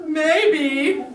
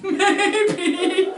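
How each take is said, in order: First: High, louder playful rising maybe; a coy, higher teasing maybe. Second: High maybe laughed out; louder, higher maybe broken by a laugh. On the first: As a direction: dangle the idea mischievously. Teasing about luring the ghost. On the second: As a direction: giggle the word through a laugh. Laughing at own idea. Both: Real, not acted.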